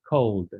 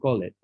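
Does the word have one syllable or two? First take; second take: one; two. First: The ending is a plain D sound, one syllable. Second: The ending adds an extra syllable before the D. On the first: The speaker calls it right. "the pronunciation of the ed is going to be a D" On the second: The speaker calls it wrong. "Not call it"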